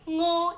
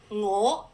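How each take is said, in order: First: Its tone gives the meaning 'diarrhea'. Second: Its tone gives the meaning 'goose'. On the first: It refers to a stomach upset. "is diarrhea" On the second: It refers to a bird. "is goose"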